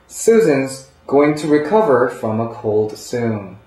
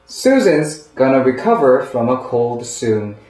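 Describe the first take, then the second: First: "Going to" is said as two full words. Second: "Going to" is reduced to "gonna".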